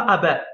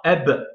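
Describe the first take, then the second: First: Ab with an open è vowel after the b, "a-bè"; wrongly added final vowel. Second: Ab ending on a bare b, no vowel after it; blocked final letter. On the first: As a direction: open the b of ab into a second syllable. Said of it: "il n'y a pas un trait en haut". (ab prononcé « a-bè », avec voyelle finale) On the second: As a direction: stop Ab dead on the b. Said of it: "On dit pas ab". (Ab, le b bloqué sans voyelle) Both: Shown as a demonstration.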